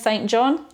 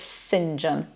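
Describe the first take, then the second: First: The name is pronounced following its spelling. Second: The name is pronounced unlike its spelling. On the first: The speaker calls it wrong. "it's not pronounced like that at all" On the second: The speaker calls it right. "It's Saint John"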